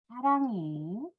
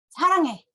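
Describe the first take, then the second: First: It is said gently and softly. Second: It is said angrily.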